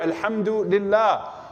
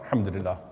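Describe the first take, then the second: First: It is said in a sincere, thankful tone. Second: It is said in a weary, complaining tone. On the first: It is a genuine expression of thanks. The speaker calls it right. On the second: The thanks is undercut by discontent. The speaker calls it wrong.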